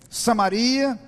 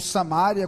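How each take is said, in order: First: The stress falls on the syllable ri. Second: The stress falls on the syllable ma.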